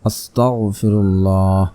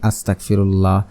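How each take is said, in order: First: The word is pronounced carefully, with clear sounds. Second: The word is pronounced carelessly, with unclear sounds. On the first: The speaker calls it right. "আপনাকে পড়তে হবে ... এভাবে পড়তে হবে" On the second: The speaker calls it wrong. "এভাবে পড়ি, উচ্চারণ হচ্ছে না"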